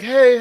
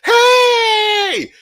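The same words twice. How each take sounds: First: It is said with low, flat energy. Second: It is said loudly with lively energy.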